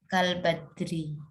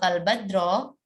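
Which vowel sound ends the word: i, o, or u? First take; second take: i; o. First: The word ends in an i vowel. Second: The word ends in an o vowel. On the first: The speaker calls it right. "Yang benar itu" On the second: The speaker calls it wrong. "ya keliru ya"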